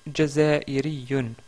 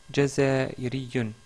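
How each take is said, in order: Both takes have the same delivery.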